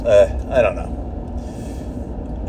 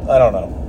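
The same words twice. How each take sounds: First: Slow, breathless trailing whisper; weary whisper. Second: Said in the usual way. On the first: Real, not acted. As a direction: let it fade out, defeated. Weary repeat.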